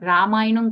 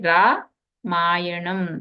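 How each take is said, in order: First: The word is said as one unbroken unit. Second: The word is split after the first syllable. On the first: It names the epic poem. "Ramayanam కాదండి" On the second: Darkness must go before one sees the divine. "రా మాయణం కింద విడగొట్టారనమాట"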